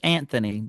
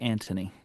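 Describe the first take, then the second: First: The middle consonant is a soft 'th' sound. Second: The middle consonant is a plain 't' sound. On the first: This is how the name is written. "So the name is" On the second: This is how British people say it. "but it's British, so they say"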